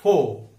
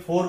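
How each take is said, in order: First: फो with no r, ending on the vowel; फो said without any r; silent final r. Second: फोर with the final r rolled out; फोर with a clear r; wrong r sound. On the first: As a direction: drop the r, just फो. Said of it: "उसका correct उच्चार है फो". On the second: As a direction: pronounce the r at the end of फोर. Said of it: "हम गलती से क्या बोलते हैं?". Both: Shown as a demonstration.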